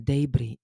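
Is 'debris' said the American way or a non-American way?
non-American. It is said in a non-American accent.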